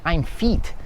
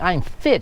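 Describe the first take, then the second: First: The vowel is a long ee sound. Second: The vowel is a short i sound. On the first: The speaker calls it wrong. "She would say I'm feet" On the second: The speaker calls it right. "she wouldn't say I'm fit"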